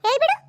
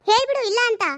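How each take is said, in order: First: Said in the usual way. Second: Insistent demand. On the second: Acted. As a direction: push her harder to deny it. Niece repeats her demand, louder.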